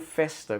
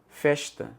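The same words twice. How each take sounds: First: The S has a neutral, disguised sound. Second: The S has a Northeastern Brazilian sound. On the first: This is how the speaker talks to hide his origin. "e não festa, como eu faço agora para me disfarçar" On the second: This is how the speaker naturally talked. "o meu S era, por exemplo"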